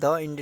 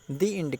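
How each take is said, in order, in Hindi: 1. 'The' को छोटे 'uh' स्वर के साथ बोला जाता है। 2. 'The' को लंबे 'ee' स्वर के साथ बोला जाता है। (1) "द इंड नहीं कहते" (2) "दी इंड कहते हैं"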